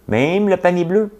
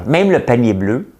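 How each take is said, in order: First: Même le panier bleu pitched much higher, outraged; indignant emphasis. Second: Said in the usual way. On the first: Shown as a demonstration. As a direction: repeat it in rising disbelief. (répétition indignée, voix nettement plus aiguë)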